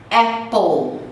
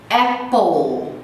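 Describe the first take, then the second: Both takes have the same delivery.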